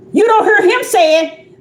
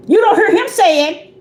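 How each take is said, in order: Both takes have the same delivery.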